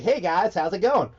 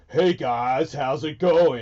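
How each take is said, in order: First: Higher pitched American greeting; high, bright American take; American accent. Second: Said in the usual way. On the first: Shown as a demonstration. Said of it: "It has to be high pitch and fast". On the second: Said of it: "It doesn't make it".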